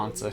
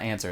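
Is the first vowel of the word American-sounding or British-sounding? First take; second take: British; American. First: The first vowel is a long British 'ah'. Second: The first vowel is a flat American 'a'. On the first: "almost like a British like voice ish" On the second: "It's not answer"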